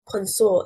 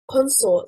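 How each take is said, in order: First: The stress is on the second syllable. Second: The stress is on the first syllable. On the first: It is a verb meaning to associate. "stressing on the second syllable" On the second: It is a noun meaning partner. "stressing on the first syllable"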